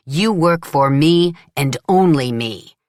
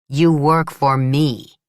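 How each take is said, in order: First: "you" punched, raised voice on the repeat; louder angry repeat. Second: "you" hit, a bit louder and slow; firm stress on you. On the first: Solara insisting Leela works only for him, louder anger. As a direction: push it harder the second time. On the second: Solara claiming Leela as his worker, firm and slow. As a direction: plant each word. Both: A narrator's reading. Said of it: "saying to her angrily".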